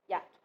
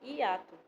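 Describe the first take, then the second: First: The i and a glide together in one syllable. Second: The i and a fall in separate syllables. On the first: The speaker calls it wrong. "a gente não fala hiato, assim de uma vez" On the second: The speaker calls it right. "A gente fala hiato, separadamente"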